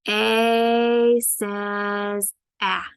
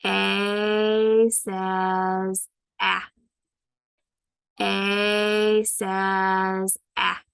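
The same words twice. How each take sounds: First: Very slow, stretched letter sound; drawn-out, model A says ah for the class; slow modelled sound. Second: Very slow, stretched repeat; slow modelled sound. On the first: Teacher to students, slowly stretching A says ah. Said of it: "I might say". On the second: Teacher repeating the sound slowly for students. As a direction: stretch each sound out for kids. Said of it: "Let's do it again". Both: Shown as a demonstration.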